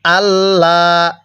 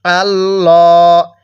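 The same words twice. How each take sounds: First: আল্লাহ with a light, thin lam, slow and drawn out; slow Quranic chant of আল্লাহ, thin lam; thin Allah. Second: আল্লাহ with a thick, full lam, slow and drawn out; slow Quranic chant of আল্লাহ, heavy lam; heavy Allah. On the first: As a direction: recite আল্লাহ slowly with a clear, thin L. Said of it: "লামটাকে চিকন করে পড়ব". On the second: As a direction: recite আল্লাহ slowly with a dark, heavy L. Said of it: "কিভাবে পড়ব? ... মোটা করে পড়ব". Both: Shown as a demonstration.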